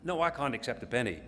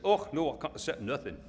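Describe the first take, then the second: First: Said in the usual way. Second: Put-on Scottish farmer's accent. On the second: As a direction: refuse it like a Scot, in broad Scottish accent. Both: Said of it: "That's a Scottish accent".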